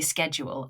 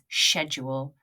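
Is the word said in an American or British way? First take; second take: American; British. First: The word is said the American way. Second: The word is said the British way. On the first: "I say schedule, and that's American" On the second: "Some people pronounce this"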